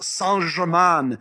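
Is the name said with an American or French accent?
French. The name is said with a French accent. The speaker calls it right. "it's pronounced Saint-Germain"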